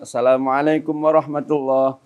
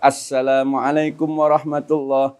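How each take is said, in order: First: The s sound is short and single. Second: The s sound is clearly doubled and held. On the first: The speaker calls it wrong. "maka syarat salamnya kurang" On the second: The speaker calls it right. "kita baca betul tasdidnya"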